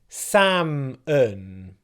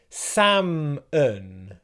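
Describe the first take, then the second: No difference in how they are said.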